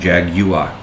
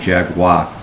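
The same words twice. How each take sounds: First: The word is said the non-American way. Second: The word is said the usual American way. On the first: The speaker calls it right. "rather than Jaguar" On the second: The speaker calls it wrong. "We just say Jaguar"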